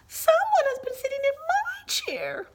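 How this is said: It is said in a small, high, squeaky voice. "squeaked Baby Bear in his tiny little voice"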